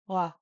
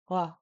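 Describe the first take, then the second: No difference in how they are said.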